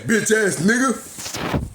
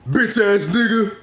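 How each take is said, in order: First: Very slow, higher, drawn-out insult with a laugh; mocking muttered insult. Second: Slow, higher, louder sneering street insult; mock insult. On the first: Retelling the Kroger shopper's parting shot, slow laughing mockery. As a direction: drag the insult out, laughing at how petty it is. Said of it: "you turned your head and said". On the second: Mocking what old-timers expect him to say, slow sneering insult. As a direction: sneer it out like a tough guy picking a fight. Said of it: "to where you had to say".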